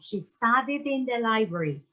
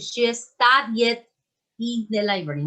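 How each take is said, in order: First: The words studied and in run together. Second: The words studied and in are said separately. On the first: The speaker calls it right. "Va junto, studied in" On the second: The speaker calls it wrong. "No voy a decir"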